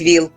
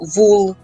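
First: The vowel is an 'i' sound. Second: The vowel is an 'u' sound. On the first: This is the standard literary form. "замість «віл»" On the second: This is the local dialect form. "я дуже часто чую слово «вул»"

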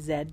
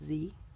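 First: The letter is said the Canadian way, as zed. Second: The letter is said the non-Canadian way, as zee. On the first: This is the Canadian way to say it. "because Canadians say Z" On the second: This is not the Canadian way to say it. "not Z"

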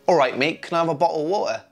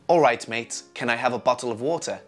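First: The t sounds in 'bottle' and 'water' are dropped. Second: The t sounds in 'bottle' and 'water' are pronounced. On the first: This is how most people in the UK really talk. "would be far more common" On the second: The speaker would be seen as posh. "If you do it the second way, in many areas in the UK, you would be labelled as posh"

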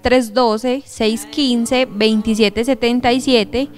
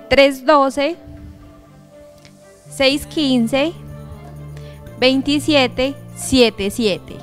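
First: The number is said at normal speed. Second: The number is said slowly.

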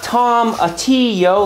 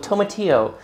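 First: The first syllable sounds like the name Tom. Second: The first syllable sounds like the word toe. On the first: The speaker calls it wrong. "Not Tomatillo, like you're offering your friend Tom some tea" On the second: The speaker calls it right. "but like toe, like a big toe"

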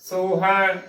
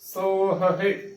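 First: The word ends in a single 'hai' sound. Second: The word ends in 'hahi' with a separate h. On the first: The speaker calls it wrong. "ਉਚਾਰਨ ਕਰਨਾ ਬਿਲਕੁਲ ਹੀ ਗਲਤ ਹੈ" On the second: The speaker calls it right. "ਇਸ ਦਾ ਸਹੀ ਉਚਾਰਨ ਹੈ"

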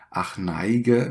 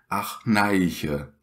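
First: The middle consonant is a hard g sound. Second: The middle consonant is a soft ch sound.

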